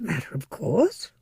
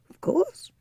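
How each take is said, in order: First: Said in the usual way. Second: A breathy, unvoiced whisper echo; whispered aside. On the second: Shown as a demonstration. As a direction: whisper it to yourself, smugly.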